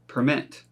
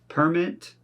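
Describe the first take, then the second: First: The stress is on the second syllable. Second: The stress is on the first syllable. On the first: It is used as a verb. "with the verbs, the emphasis is not on the first" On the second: It is used as a noun. "for most of these nouns is on the first syllable"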